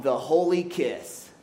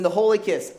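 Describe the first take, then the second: First: "the holy kiss" slow and drawn out; slow dramatic title. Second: Preacher restates the holy kiss, louder; louder restated title. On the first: Preacher unveiling the sermon topic to the church, slowly. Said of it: "Listen, the holy kiss". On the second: Preacher calling the topic again to the church, louder. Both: Shown as a demonstration.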